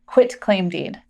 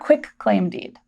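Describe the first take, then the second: First: The first syllable ends in a t sound. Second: The first syllable ends in a k sound. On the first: The speaker calls it right. "We want to make sure we pronounce this quitclaim deed" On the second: The speaker calls it wrong. "not quitclaim deed"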